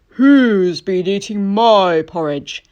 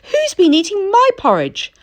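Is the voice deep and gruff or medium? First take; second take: deep gruff; medium. First: It is said in a loud, gruff voice. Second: It is said in a medium voice.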